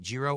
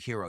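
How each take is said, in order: First: The word begins with a G sound. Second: The word begins without a G sound. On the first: "there's two different ways to pronounce it" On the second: "You could say this G is silent"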